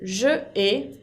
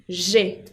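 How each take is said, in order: First: It is said as two separate syllables. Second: The vowel of je drops, giving one syllable. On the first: The speaker calls it wrong. "En vez de decir je ai" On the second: The speaker calls it right. "on dit j'ai pour une meilleure prononciation"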